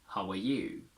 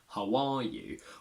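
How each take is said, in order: First: The word 'you' is stressed; 'are' is weak. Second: The word 'are' is strong and stressed. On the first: It contrasts the listener with the speaker. "I am stressing the word you" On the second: It is a plain opening question. "Where are is strong"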